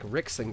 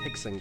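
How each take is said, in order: First: The name starts with an R sound. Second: The name starts with an H sound. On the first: The speaker calls it wrong. "It looks like Rickson Gracie" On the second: The speaker calls it right. "but it's pronounced Hickson Gracie"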